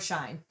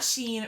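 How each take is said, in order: First: It is one syllable rhyming with 'line'. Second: It is one syllable rhyming with 'seen'. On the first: "It is not Sheen or Shine" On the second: "It is not Sheen or Shine"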